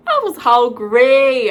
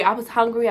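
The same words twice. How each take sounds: First: HUNGRY stretched out slow and loud; emphatic hungry. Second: Said in the usual way. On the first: Real, not acted. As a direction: drag out "hungry" high and loud. Stresses how hungry she was.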